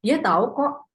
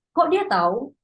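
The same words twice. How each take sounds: First: "Dia tahu kok" stressing dia, kok at the end; emphatic assurance. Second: "Kok dia tahu?" pitched higher with a rising end; puzzled question. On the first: Teacher demonstrating sentence-final kok, insisting. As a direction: insist he really knows. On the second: Teacher demonstrating kok question, surprised rise. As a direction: ask in disbelief how he knew. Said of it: "seperti tanya". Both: Shown as a demonstration.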